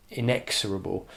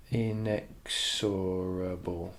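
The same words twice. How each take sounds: First: Said in the usual way. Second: Very slow, syllable by syllable; drawn out. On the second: Shown as a demonstration. Teacher sounding out the word while writing it, drawn out. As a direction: stretch out each syllable of "inexorable".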